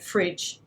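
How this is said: Said in an Australian accent with a clear vowel. "an Aussie would say fridge"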